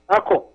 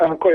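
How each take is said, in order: First: The word is said in its patois form, accord. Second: The word is said like standard English encore. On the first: The speaker calls it right. "the correct pronunciation for that is accord" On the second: The speaker calls it wrong. "the word is not encore"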